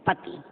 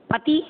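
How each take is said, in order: First: Said in the usual way. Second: "पति" with a raised, questioning end; rising wrong-version "पति"; misspelt form demonstrated. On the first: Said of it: "शुद्ध". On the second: Shown as a demonstration. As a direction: read "पति" high, final vowel lifted as if in doubt. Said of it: "column बने अशुद्ध और".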